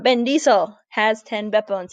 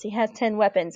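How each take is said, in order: First: Mock German-Russian accent on English words; playful German-Russian accented catchphrase; mixed German-Russian-English accent. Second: Said in the usual way. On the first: Shown as a demonstration. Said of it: "You say it in kind of a mixed German, Russian, English accent".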